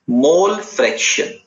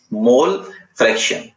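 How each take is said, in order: First: Slow, higher term announcement; slow announcing. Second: Said in the usual way. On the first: Shown as a demonstration. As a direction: announce the new term slowly.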